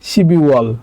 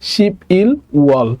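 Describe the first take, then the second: First: The consonant carries over, linking the syllables. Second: Each syllable is said separately, without linking.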